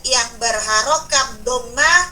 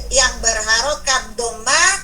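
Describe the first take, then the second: Both takes have the same delivery.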